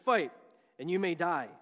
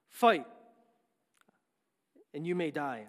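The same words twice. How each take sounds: First: It is spoken in the speaker's ordinary accent. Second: It is spoken in an attempted Scottish accent. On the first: "But I'll just do it straight" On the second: "I was working my Scottish accent. I can't do it"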